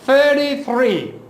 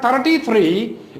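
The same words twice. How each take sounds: First: It starts with a soft th sound. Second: It starts with a stop like the Urdu t. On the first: The speaker calls it right. "it is thirty-three" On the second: The speaker calls it wrong. "so it is not thirty-three"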